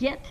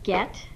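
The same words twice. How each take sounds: First: The vowel is sloppy and poorly enunciated. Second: The vowel is clear and carefully enunciated. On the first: The speaker calls it wrong. "I heard get" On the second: The speaker calls it right. "instead of get"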